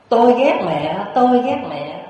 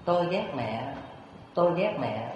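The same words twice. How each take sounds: First: Put-on high, loud angry child's cry; raised-voice yell, drawn from a sulking boy. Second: Soft, distant forest echo; hushed imitation of an echo; echoing back. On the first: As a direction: yell it out into the forest. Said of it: "cậu ta mới la lớn lên". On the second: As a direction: let it come back faintly from the woods. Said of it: "trong rừng sâu vang lại những tiếng".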